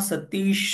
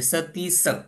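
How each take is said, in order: First: The name ends with an 'sh' sound. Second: The name ends with an 's' sound. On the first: This is the Marathi form. "माझं नाव सतीश आहे" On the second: This is the Pali form. "श काढून त्याच्याऐवजी स घ्यावं लागेल, मग असं होईल ते सतीस"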